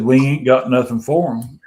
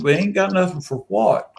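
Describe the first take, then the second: First: Said in the usual way. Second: Higher questioning echo of his words; puzzled group retort. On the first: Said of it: "He said". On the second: Retold or imitated. Friends asking Rob what he means, puzzled retort. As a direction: throw it back as a baffled question. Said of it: "And we said".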